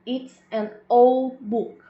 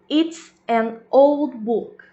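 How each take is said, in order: First: Breathless slow whisper, no voice; whispered example. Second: Loud slow example. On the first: Teacher whispers the example sentence to the class, slow whisper. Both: Shown as a demonstration. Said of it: "um outro exemplo aqui".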